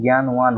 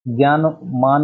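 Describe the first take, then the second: First: ज्ञानवान with a clear व; correct form. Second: ज्ञानमान said slow and clear; wrong form, slowly. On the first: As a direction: say ज्ञानवान, with व not म. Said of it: "ज्ञानवान होता है". (ज्ञानवान में व साफ़) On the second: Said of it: "ज्ञानमान में नहीं". (ज्ञानमान धीरे-धीरे) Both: Shown as a demonstration.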